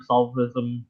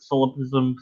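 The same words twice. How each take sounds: First: "solipsism," garbled as SOL-viz-um; a second unsure stab at "solipsism," squashed to SOL-viz-um; garbled pronunciation. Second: "solipsism," tried as SIL-uh-piz-um, unsure; unsure pronunciation. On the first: Host unsure however you say it, garbling "solipsism" as SOL-viz-um. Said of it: "however you say it". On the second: Host can never say the word, unsure "solipsism" as SIL-uh-piz-um. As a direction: stumble at "solipsism," dropping its second s. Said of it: "I can never say the word". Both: Real, not acted.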